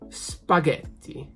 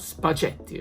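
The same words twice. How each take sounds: First: The middle consonant is a hard g sound. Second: The middle consonant is a soft j sound. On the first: The speaker calls it right. "Because of the H and the new G sound" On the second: The speaker calls it wrong. "which is not now spaghetti"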